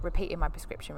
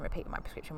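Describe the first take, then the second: First: Said in the usual way. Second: Soft whispered repeat; whispered echo. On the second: Real, not acted. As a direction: breathe the phrase again under your breath. Repeats phrase, second time whispered.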